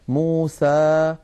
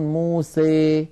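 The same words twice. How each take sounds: First: The final vowel is a plain, open 'a'. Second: The final vowel leans strongly toward 'ee'. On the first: "فتحا وسطا" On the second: "يبالغ في هذا الأمر فيخلط صوت الألف بصوت الياء أكثر"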